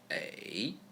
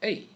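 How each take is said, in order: First: The pitch dips low, then rises. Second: The pitch falls sharply from high to low.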